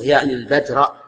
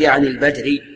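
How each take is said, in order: First: The last word ends with an a vowel. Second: The last word ends with an i vowel. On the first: The word is the object governed by the verb. The speaker calls it right. "أنا عندي منصوبة يعني البدر" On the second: The word is quoted as it stood before. The speaker calls it wrong. "لا تقول يعني البدري"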